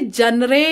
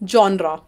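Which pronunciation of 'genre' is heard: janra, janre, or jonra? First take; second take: janre; jonra. First: It begins with 'jan' and ends in 'ray'. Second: It begins with 'jon' and ends in 'ra'. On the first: The speaker calls it wrong. "इसे जनरे या फिर जनरा नहीं बोला जाता है।" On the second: The speaker calls it right. "This word is pronounced as जॉनरा।"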